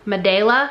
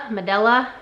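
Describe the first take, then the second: First: Medela with a long AY in the middle, muh-DAY-luh; trying a pronunciation. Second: Medela with a short EH in the middle, muh-DELL-uh; alternative pronunciation. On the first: Reseller unsure of a brand name, tries Medela as muh-DAY-luh. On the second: Reseller unsure of a brand name, tries Medela as muh-DELL-uh. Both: Shown as a demonstration. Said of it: "I don't know how to pronounce it".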